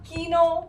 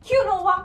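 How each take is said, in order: First: It is said with two syllables, kee-no. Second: It is said with three syllables, kyoo-no-wah.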